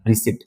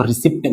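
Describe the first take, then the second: First: रिसीट with silent p; correct pronunciation. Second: रिसिप्ट with the p sounded; wrong pronunciation. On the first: Teacher models the word for students, रिसीट with silent p. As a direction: say रिसीट with a long ee and no p. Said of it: "इसको रिसीट पढ़ना". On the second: Teacher warns students against this reading, mispronounced रिसिप्ट with a p. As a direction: say रिसिप्ट with an audible p before the t. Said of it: "इसको रिसिप्ट मत पढ़ना". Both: Shown as a demonstration.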